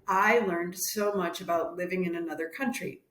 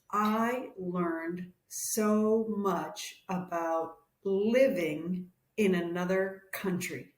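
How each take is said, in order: First: The sentence is spoken at a normal pace. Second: The sentence is spoken slowly and carefully.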